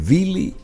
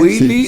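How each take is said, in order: First: The name starts with a German V-like sound. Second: The name starts with an English W sound. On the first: "si te centras en el mundo germánico, es Willy Müller" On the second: "dirías si hablas algo, eh, apuntada al anglosajón"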